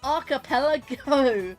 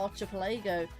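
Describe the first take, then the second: First: The 'ch' is said like a 'k'. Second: The 'ch' is said like in 'church'. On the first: The speaker calls it right. "It's archipelago" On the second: The speaker calls it wrong. "a lot of people are call it archipelago"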